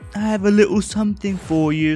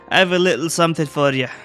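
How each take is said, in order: First: Spoken in a put-on comic British spy voice. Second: Spoken in the ordinary character reading voice.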